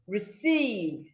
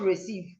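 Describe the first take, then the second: First: The stress is on the second syllable. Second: The stress is on the first syllable. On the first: The speaker calls it right. "when it's a verb, the stress falls on the second syllable" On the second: The speaker calls it wrong. "not receive"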